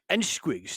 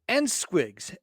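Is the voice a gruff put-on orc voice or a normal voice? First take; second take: orc voice; normal. First: It is read in a gruff put-on orc voice. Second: It is read in a normal speaking voice.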